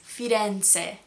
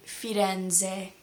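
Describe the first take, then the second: First: Firenze with an Italian ts, "firen-tseh"; TS sound. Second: Firenze with a buzzed English z, "firen-zeh"; American Z. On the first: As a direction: say Firenze slowly, z as t-s. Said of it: "Z sound is actually a T S". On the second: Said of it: "with a very American Z". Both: Shown as a demonstration.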